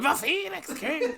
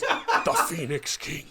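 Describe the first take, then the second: First: It is said high and flamboyantly dramatic. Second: It is said low and understated. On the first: The speaker calls it wrong. "but you go" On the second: The speaker calls it right. "It's down here"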